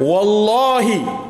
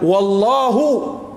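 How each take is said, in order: First: The word ends with an i vowel. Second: The word ends with an u vowel. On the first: It is an oath by God. "artinya demi Allah" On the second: It simply means and God. "dan Allah, nah, beda. Beda harakat aja itu"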